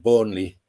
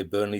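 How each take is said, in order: First: Burnley with a Geordie burr on the r; Northumberland Burnley. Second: Said in the usual way. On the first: Shown as a demonstration. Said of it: "he didn't say Burnley, he said Burnley". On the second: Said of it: "I kinda do his, his Northumberland accent".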